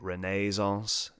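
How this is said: It is said the way English people say it.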